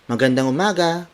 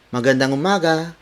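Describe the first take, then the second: First: It is said in a bright, cheery tone. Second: It is said in a bright, cheery tone.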